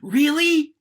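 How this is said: It is loud, fast and high, sounding excited. The speaker is thrilled by the news. "I'm going to bring the pitch up. I'm going to bring the rate of that word up. I'm going to bring the volume of that word up"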